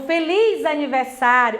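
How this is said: It is said joyfully, with excitement.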